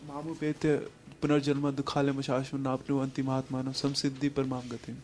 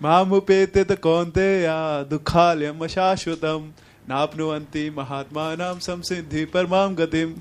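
First: It is recited plainly, without drama. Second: It is declaimed dramatically, like a poet addressing crowds.

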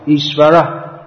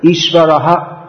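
First: It ends with a faint breathy h sound. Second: It ends with an h plus a repeated vowel. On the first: "they make something resembling an eight, what we might call an eight sound" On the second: "One way is to pronounce the vowel like"

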